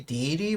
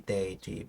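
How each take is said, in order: First: The first syllable does not sound like 'day'. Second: The first syllable sounds like the word 'day'. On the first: "I always say deity" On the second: "it should be deity because it's a day"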